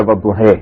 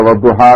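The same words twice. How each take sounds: First: وضحے ending in "hay" instead of "haa"; final "ay" vowel. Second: وضحا ending in a full open "aa"; open final aa. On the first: Showing students other reciters' reading, وضحے ending in "ay". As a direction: tilt the last vowel of وضحے to "ay". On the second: Showing students one reciters' reading, وضحا ending in open "aa". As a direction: say وضحا with a long open "haa" at the end. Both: Shown as a demonstration. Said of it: "یہ pronunciation کا فرق ہے".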